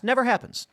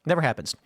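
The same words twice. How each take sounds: First: NEVER pitched high and hit hard in "Never happens"; emphatic denial. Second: Said in the usual way. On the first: Shown as a demonstration. To the viewers about women never objecting, Never punched high. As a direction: punch "Never" up high, then let it drop. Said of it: "emphatic repeated denial". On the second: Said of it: "quieter repeat".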